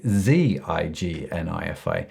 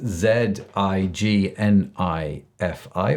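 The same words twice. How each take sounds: First: The first letter is pronounced as zee. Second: The first letter is pronounced as zed. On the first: "or if you're outside of the U K" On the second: "the English pronounce the, the, the last letter of the alphabet as Z"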